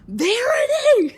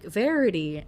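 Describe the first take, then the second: First: High, loud, drawn-out shout of the name, breaking into laughter; panicked shout. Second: Said in the usual way. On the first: Retold or imitated. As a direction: yell the name in slow panic, much higher and louder. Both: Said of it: "and she's like".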